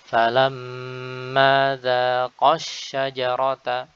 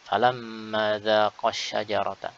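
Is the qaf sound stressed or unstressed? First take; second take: stressed; unstressed. First: The qaf is read with added stress. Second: The qaf is read without added stress. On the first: Two people tasted the fruit. The speaker calls it right. "dengan memberikan tekanan pada huruf qaf" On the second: Only one person tasted the fruit. The speaker calls it wrong. "membaca dengan tanpa mengesankan ada alif di situ"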